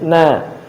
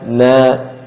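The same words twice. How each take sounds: First: The syllable 'na' sounds light and thin. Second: The syllable 'na' sounds heavy and thick. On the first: The speaker calls it right. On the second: The speaker calls it wrong.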